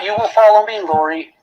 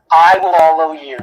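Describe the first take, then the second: First: "You will follow me" held high, dropping away on "Lori"; contrastive rejected wording. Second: "I" hit loud, then falling through "will follow you"; stress on I. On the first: Prosecutor rejecting a misreading to jurors, "You will follow me" pitched high. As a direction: raise "You will follow me" as the wrong version. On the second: Prosecutor correcting who follows whom for jurors, emphatic "I". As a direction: punch "I" as the correction, landing firmly on "you". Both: Shown as a demonstration.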